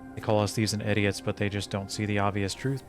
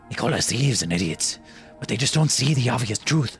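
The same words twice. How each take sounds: First: It is said in his natural voice. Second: It is said in a put-on character voice.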